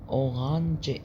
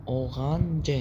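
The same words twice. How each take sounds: Both takes have the same delivery.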